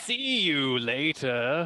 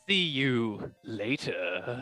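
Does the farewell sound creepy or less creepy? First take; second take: less creepy; creepy. First: The farewell is said in a less creepy way. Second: The farewell is said in a creepy way. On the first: The speaker seems more open and friendly. The speaker calls it right. "it's a little better" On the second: The speaker seems menacing. The speaker calls it wrong. "It's creepy"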